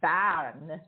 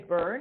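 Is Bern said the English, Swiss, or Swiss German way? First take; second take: Swiss German; English. First: The name is said with a Swiss German pronunciation. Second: The name is said with an English pronunciation. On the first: "or actually by a Swiss German" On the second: "if you say it in English, um, people say Bern"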